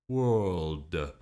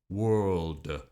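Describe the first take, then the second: No difference in how they are said.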